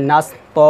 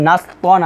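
First: "নাস ত" ending on a long open vowel; "ত" held for one alif; pausal waqf reading. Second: "নাস তন" closing on n; "তন" short, ending in n; written form with tanween. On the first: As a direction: stretch "ত", leaving off the n. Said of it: "আমাদেরকে পড়তে হবে নাস ত". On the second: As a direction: say "তন" with the n sounded. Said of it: "দেখুন নাস তন আছে". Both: Shown as a demonstration.

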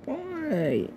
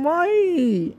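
First: Softer, high broken "Why?"; despairing, high whispery "Why?"; hushed anguished why. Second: Anguished why. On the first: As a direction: let "Why?" fall away nearly to nothing, still high and pained. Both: Real, not acted. Upset over fetish videos of him.

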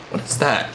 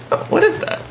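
First: Said in the usual way. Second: High, unvoiced, puzzled squeak on "what is that"; curious squeak. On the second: Real, not acted. Gamer spotting a strange object, squeaking "what is that". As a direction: ask "what is that" in a tiny breathless high voice.

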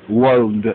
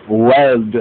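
First: Wald said with a broad aw vowel instead of e; Wald, rounded aw as in walled; Wald, the o-like variant of weld. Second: Weld said with a clear short e vowel; weld, with an open e as in bed; weld, not wald; standard weld. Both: Shown as a demonstration. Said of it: "their pronunciation leads them to say wald".

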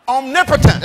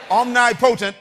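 First: Omnipotent as om-NIP-uh-tent, loud; forceful Omnipotent with short, unstressed "potent"; standard pronunciation. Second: Omnipotent as two words, OM-NIGH POH-tent; loud Omnipotent, sounded out as omni plus potent; split pronunciation. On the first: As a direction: say Omnipotent as one word, stressed on NIP. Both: Shown as a demonstration. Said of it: "How do you pronounce that?".

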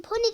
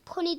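First: "Pony" called out higher and louder. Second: Said in the usual way. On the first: Shown as a demonstration. Warning the doll not to yell "Pony" at her, calling it out. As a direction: call out "Pony" the way she must not. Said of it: "diye bağırma". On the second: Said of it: "deme ona".

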